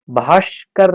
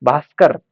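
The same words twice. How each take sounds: First: भास्कर said slowly as "bhaashkar" with a sh sound; wrong pronunciation. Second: भास्कर said as "bhaaskar" with a clean s sound; भास्कर with a crisp s, "bhaas-kar"; correct pronunciation. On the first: Teacher to exam students, wrong sh form of भास्कर. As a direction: stretch भास्कर as "bhaash-kar", sh in the middle. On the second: Teacher to exam students, correct s form of भास्कर. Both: Shown as a demonstration. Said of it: "भास्कर नहीं".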